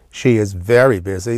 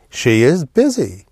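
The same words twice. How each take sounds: First: "very" emphasized above the other words; stress on very. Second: "busy" stressed, louder and higher example sentence. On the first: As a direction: lean on the word "very". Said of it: "depending on how you emphasize the very". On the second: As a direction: land firmly on "busy". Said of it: "let's just say". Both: Shown as a demonstration.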